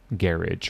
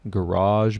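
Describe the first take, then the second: First: It is said with a British accent. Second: It is said with an American accent. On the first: "but in British English, they say garage" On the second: "in American English, how do we say this word? We say this word as garage"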